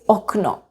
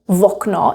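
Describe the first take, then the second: First: The word starts directly with a vowel. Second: The word starts with an added v sound. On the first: This is the standard form. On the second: This is the informal spoken form.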